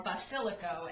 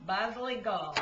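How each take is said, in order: First: Basilico in standard Italian, every syllable full, ending in a clear o. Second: Basilico in Neapolitan dialect, final vowel swallowed, "pazlicol". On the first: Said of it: "as they say in other Italian". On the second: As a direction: say basilico the Neapolitan way, clipping the ending. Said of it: "other than Neapolitan dialect". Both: Shown as a demonstration.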